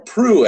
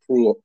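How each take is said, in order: First: The L sound is silent in the name. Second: The L sound is pronounced in the name. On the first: The speaker calls it right. "I heard is the correct pronunciation. I think the L is silent" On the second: The speaker calls it wrong. "I think I've been mangling it for a few episodes now"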